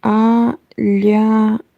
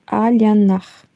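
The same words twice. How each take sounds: First: "Alyanach" drawn out slowly, each syllable separate. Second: Said in the usual way. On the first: Shown as a demonstration. Streamer sounding out a viewer's name, syllable by syllable. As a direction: sound out "Alyanach" in three slow pieces. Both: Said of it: "Can you say".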